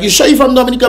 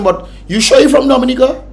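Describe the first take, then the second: First: The question sounds mild and gentle. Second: The question sounds harsh and suspicious.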